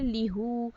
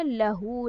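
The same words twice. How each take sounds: First: लीहू with a long ee in the first syllable, as the form that cannot be said; wrong form. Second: लहू with a short a, la-hoo, as the proper form; correct form. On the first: Teacher shows the form Arabs found hard to say, लीहू. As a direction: say लीहू, lee-hoo, as the rejected form. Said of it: "लीहू नहीं हो सकता ना". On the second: Teacher gives the form the Arabs actually use, लहू. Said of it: "तो उन्होंने क्या किया". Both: Shown as a demonstration.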